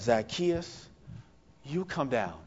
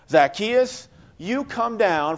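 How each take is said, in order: First: The voice sounds warm and compassionate. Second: The voice sounds stern and commanding. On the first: The caller is inviting with love and compassion. The speaker calls it right. "a more compassionate, loving tone" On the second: The caller is scolding and demanding. The speaker calls it wrong. "this very stern tone of voice"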